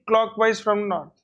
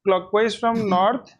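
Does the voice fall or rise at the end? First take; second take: fall; rise. First: The voice falls at the end, like a statement. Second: The voice rises at the end, like a question. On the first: It is given as a confident answer. The speaker calls it right. "The tone should be" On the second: It sounds like an unsure question. The speaker calls it wrong. "Don't ask"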